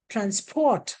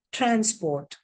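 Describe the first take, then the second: First: Transport stressed on PORT; stress on second syllable. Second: Transport stressed on TRANS; stress on first syllable. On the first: Teacher reading the second column, stress on PORT in transport. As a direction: hit PORT in transport, trans left weak. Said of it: "the stress has now shifted". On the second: Teacher reading the first column, stress on TRANS in transport. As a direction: hit TRANS in transport, port left weak. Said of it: "stress on the first syllable". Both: Shown as a demonstration.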